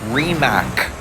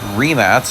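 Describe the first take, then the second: First: The name is said the international way. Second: The name is said the native way. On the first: "the international pronunciation" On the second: "not going to be easy for a lot of people to say"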